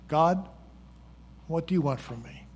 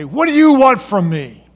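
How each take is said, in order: First: It is asked in a sincere, calm tone. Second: It is asked in an angry tone.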